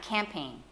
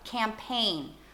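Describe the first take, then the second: First: The stress is on the first syllable. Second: The stress is on the second syllable. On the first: The speaker calls it wrong. "bukan campaign" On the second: The speaker calls it right. "Kita tekan suku kata yang kedua"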